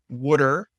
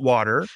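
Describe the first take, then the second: First: It is said in a Baltimore accent. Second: It is said in a standard accent. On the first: This is how people in the hometown said it. "we used to say water" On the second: This is how people elsewhere say it. "not water"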